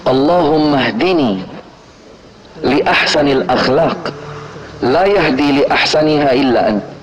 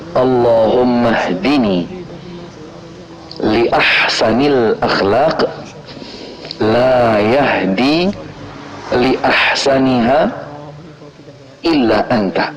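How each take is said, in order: First: It is recited at a normal, quicker pace. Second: It is recited slowly and deliberately.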